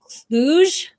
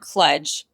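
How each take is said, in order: First: The word does not rhyme with sludge. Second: The word rhymes with sludge. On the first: "different ways to pronounce it" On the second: "like sludge"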